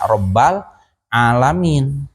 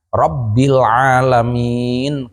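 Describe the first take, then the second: First: The first word ends with an a vowel. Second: The first word ends with an i vowel. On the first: The speaker calls it wrong. "atau dibaca Rabbal alamin" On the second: The speaker calls it right. "kuduna Rabbil alamin"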